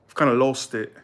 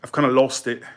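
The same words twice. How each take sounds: The two takes are said the same way.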